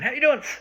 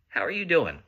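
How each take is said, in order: First: It is said quickly and offhandedly in passing. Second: It is said slowly and warmly with real interest. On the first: The greeting is a habit, not real interest. The speaker calls it wrong. "we do it as we're like running past them" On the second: The speaker truly cares how the person is. The speaker calls it right. "we don't actually mean like"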